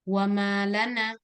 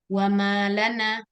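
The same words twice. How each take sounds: The two takes are said the same way.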